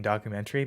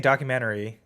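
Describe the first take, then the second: First: "documentary" ending in TREE; docu-MEN-tree for "documentary"; corrected pronunciation. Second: "documentary" with an unclipped -tary ending; docu-MEN-ta-ry for "documentary"; speaker's own pronunciation. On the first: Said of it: "and then somebody's like". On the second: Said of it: "I was saying documentary". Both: Retold or imitated.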